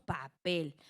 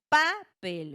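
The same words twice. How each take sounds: First: The stress is on the last syllable. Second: The stress is on the first syllable. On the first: The speaker calls it right. "Decimos papel. ... dónde recae la sílaba tónica ... en la última" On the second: The speaker calls it wrong. "nosotros no decimos papel"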